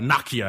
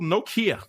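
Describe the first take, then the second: First: It is said with an overseas-style pronunciation. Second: It is said with a typical American pronunciation.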